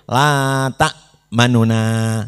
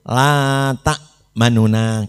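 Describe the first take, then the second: Both takes have the same delivery.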